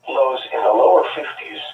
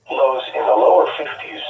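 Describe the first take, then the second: No difference in how they are said.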